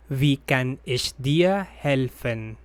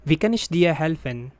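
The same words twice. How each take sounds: First: Said in the usual way. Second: Wie kann ich dir helfen said quickly, stress on kann; natural speed. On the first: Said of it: "repeat for learners". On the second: Shown as a demonstration. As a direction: say it at full native pace. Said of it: "phrase said at natural speed first". (quick native-speed read)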